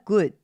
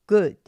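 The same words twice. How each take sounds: Both takes have the same delivery.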